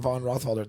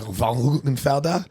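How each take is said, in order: First: The surname is said with an anglicized pronunciation. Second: The surname is said with a German pronunciation.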